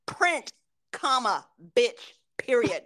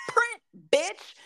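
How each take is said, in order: First: Slow, word-by-word dictation with punctuation; deliberate command. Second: Higher-pitched, punchy order; exasperated command. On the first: Worker orders a stubborn printer, slow and deliberate. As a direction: spell out the order slowly and firmly. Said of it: "this is how I'm like". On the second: Worker snaps at a stubborn printer, high and exasperated. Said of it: "So I'm like". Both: Shown as a demonstration.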